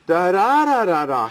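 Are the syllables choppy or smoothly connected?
connected. The syllables flow together without any breaks. This is how a native speaker's rhythm sounds. The speaker calls it right. "It's very legato. It's very connected"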